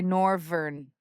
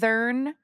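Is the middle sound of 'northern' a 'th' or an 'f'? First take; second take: f; th. First: The middle sound is an 'f' sound. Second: The middle sound is a 'th' sound. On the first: "They say it with a, v- uh, an F" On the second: "Instead of"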